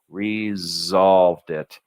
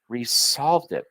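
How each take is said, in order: First: The s in resolved is a buzzing z. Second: The s in resolved is a hissing s. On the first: The speaker calls it right. "You want a good Z sounding S in resolved" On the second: The speaker calls it wrong. "Try to say this with an S sounding S"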